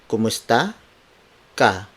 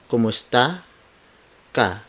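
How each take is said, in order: The two takes are said the same way.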